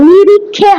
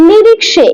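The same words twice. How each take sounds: First: নিরিক্ষে said the Bengali way with a "khe" sound; teacher models the wrong নিরিক্ষে with kh; wrong Bengali reading. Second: নিরিক্সে said with a clear "kshe" ending; teacher gives the right নিরিক্সে with ksh; correct Sanskrit reading. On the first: Teacher warns students against Bengali নিরিক্ষে. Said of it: "নিরিক্ষে হয় না". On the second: Teacher corrects the students to Sanskrit নিরিক্সে. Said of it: "এটাই হচ্ছে কি উচ্চারণ". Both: Shown as a demonstration.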